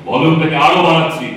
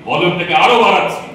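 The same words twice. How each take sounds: Both takes have the same delivery.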